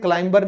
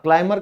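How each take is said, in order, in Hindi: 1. इस शब्द में b बोला जाता है। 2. इस शब्द में b साइलेंट है। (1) "क्लाइंबर नहीं कहते" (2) "क्लाइमर कहते हैं"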